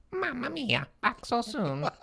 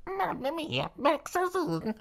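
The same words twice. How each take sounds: First: High squeaky Italian voice; muffled high Italian old man; high-pitched Italian voice. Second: Very high squeaky Italian voice; high-pitched Italian voice. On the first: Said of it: "high-pitched, muffled Italian voice". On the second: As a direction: redo it higher and more garbled. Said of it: "Wait, sorry". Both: Acted.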